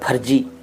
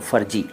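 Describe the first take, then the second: First: It has an aspirated p sound and a j sound. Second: It has an f sound and a j sound. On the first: "वो तो बिल्कुल ही गलत है" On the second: "फ़र्जी बोलते हैं ज़्यादातर लोग, वो भी ठीक नहीं है"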